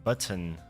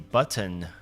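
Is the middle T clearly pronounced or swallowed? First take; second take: pronounced; pronounced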